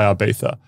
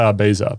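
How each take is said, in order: First: The middle consonant is a th sound. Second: The middle consonant is a z sound. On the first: The speaker calls it wrong. "people are going to say Ibiza, but I don't see a TH" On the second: The speaker calls it right. "I'm Australian, so I'm not going to pretend I'm Spanish. So I'm going to say Ibiza"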